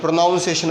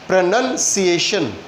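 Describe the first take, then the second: First: The second syllable sounds like 'noun'. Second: The second syllable sounds like 'nun'. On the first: The speaker calls it wrong. "बहुत से इसे प्रोनाउंसिएशन बोलते हैं।" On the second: The speaker calls it right. "तो क्या बोलते हैं इसे?"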